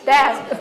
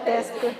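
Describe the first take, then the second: First: The word is said with one syllable. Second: The word is said with three syllables. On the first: The speaker calls it right. "그래서 일음절인데" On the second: The speaker calls it wrong. "데스크가 삼음절이 아니라"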